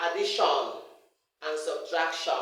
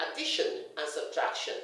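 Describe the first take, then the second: First: Addition and subtraction ending in full-vowel SHON; wrong "shon" endings. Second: Said in the usual way. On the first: Shown as a demonstration. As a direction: say a-di-SHON and sub-trak-SHON. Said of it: "Don't say". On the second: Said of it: "Say addition and subtraction".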